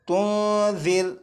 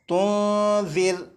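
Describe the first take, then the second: No difference in how they are said.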